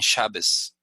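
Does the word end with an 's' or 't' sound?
s. The word ends with an 's' sound. This is a regional dialect form. "ellos dicen Shabbos"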